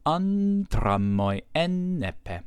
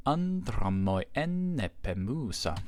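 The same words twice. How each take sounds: First: "Andra moi enne pe" chanted slow, higher and louder; dactylic recitation. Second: Slow, measured recitation of "Andra moi enne pemusa"; scanning the Odyssey. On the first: Teacher replays the verse to show the short moi, slow, high and loud. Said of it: "the person did not pronounce moi as long". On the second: Teacher reads the first Odyssey line to students, slow and measured. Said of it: "we actually see this in the first line of the Odyssey". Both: Shown as a demonstration.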